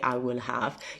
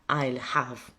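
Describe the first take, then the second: First: Both words are said in full. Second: The words are contracted into one syllable. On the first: The speaker calls it wrong. "you don't say I will have" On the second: The speaker calls it right. "you say I'll have"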